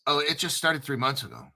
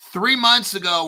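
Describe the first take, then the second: First: Said in the usual way. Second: Louder stress on "months" in "Three months ago"; emphatic repeat. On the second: Real, not acted. Hammering home to viewers how new it is, stressing "months".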